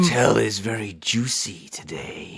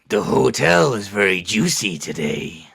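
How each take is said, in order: First: It is said in a sultry, lustful voice. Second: It is said in a gruff action-hero voice. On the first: "a little bit more lust behind it" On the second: "do your best Duke Nukem and say it"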